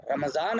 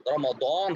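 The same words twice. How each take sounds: First: "रमज़ान" with a buzzing z, Urdu style; z pronunciation. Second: "रमज़ान" with a heavy Arabic d in place of z; heavy d and rounded long vowel in "रमज़ान"; Arabic pronunciation. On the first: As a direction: say "रमज़ान" as Ramzaan, with z not d. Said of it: "अगर हम कहेंगे". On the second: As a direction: say "रमज़ान" as Ramadaan, Arabic style. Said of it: "अरबी ज़बान में". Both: Shown as a demonstration.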